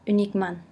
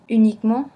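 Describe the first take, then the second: First: The final vowel ends with an audible n sound. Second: The final nasal vowel has no nasal consonant.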